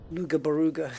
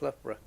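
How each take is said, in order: First: Lugabaruga, a silly garbling of Loughborough; mock-ignorant "LOO-ga-ba-ROO-ga" for Lugabaruga; joke mispronunciation. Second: Loughborough as "LUFF-bruh", quieter; correct local pronunciation. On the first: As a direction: playfully say Lugabaruga with hard g sounds. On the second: Shown as a demonstration. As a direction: softly say Loughborough with an f and a short ending. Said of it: "That's pronounced Loughborough".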